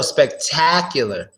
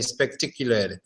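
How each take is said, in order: First: "spectacular" slowly, mouth open wide on the A: spec-TAK-ular; open A sound. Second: "spectacular" with a closed i in the middle: spec-ti-cular; "spectacular" said wrongly with a narrow middle vowel; wrong vowel demo. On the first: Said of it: "You have to open your mouth on the A sound". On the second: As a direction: show the wrong take, "spectacular" with the A squeezed to i. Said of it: "You don't wanna say spectacular". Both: Shown as a demonstration.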